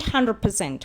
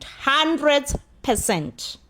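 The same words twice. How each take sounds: First: Said in the usual way. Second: HUNDRED PERCENT stretched out slowly, higher; emphatic confirmation. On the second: Real, not acted. Vlogger judging Zethu an equal participant, emphatic confirmation. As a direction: draw out each word of HUNDRED PERCENT.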